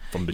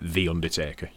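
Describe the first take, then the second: First: The word 'the' is merged into one word. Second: The word 'the' is said as a separate word.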